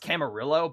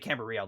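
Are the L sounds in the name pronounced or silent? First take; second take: pronounced; silent. First: The L sounds in the name are pronounced. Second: The L sounds in the name are silent. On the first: The speaker calls it wrong. "it's spelled like it's pronounced" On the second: The speaker calls it right. "you're supposed to say ... the L's are silent"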